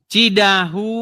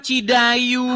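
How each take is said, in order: First: The middle consonant is an h sound. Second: The middle consonant is a y sound. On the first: The speaker calls it right. "Cidahu, kamu bilang Cidayu" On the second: The speaker calls it wrong. "kamu bilang Cidayu"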